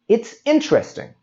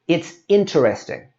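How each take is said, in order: First: The middle vowel is dropped, giving three syllables. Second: The middle vowel is pronounced, giving four syllables. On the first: The speaker calls it right. "We say it's interesting" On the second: The speaker calls it wrong. "we don't say it's interesting"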